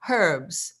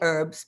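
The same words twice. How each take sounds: First: Herbs is said the way non-Americans say it. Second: Herbs is said the way Americans say it.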